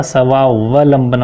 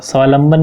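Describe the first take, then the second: First: "स्वावलंबन" slowly, with the middle va sounded; correct pronunciation. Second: "स्वावलंबन" said as svaalamban, losing a va; wrong pronunciation. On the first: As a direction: draw out "स्वावलंबन" as svaa-va-lamban. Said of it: "स्वावलंबन होगा". ("स्वावलंबन" धीरे, व पर साफ़ उच्चारण) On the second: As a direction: swallow the middle va of "स्वावलंबन". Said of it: "स्वावलंबन नहीं होगा". ("स्वावलंबन" को स्वालंबन बोलना) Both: Shown as a demonstration.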